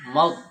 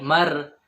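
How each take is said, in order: First: The r is a single short tap. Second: The r is trilled with several vibrations. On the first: The speaker calls it right. "Getaran huruf ro itu hanya satu" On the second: The speaker calls it wrong. "itu terlalu banyak getarannya"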